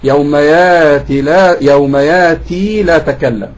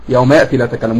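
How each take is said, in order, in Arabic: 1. الحركة الأخيرة في "يأتي" طويلة. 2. الحركة الأخيرة في "يأتي" قصيرة. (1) "في ناس هنا معانا مثلا بيقرب ورش" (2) "احنا بننطقها كحفص"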